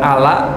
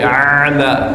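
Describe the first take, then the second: First: The word starts with a plain vowel. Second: The word starts with a throaty ain sound. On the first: The speaker calls it wrong. "bukan ala" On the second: The speaker calls it right. "pakai ain, tadi a'la bukan ala tapi a'la"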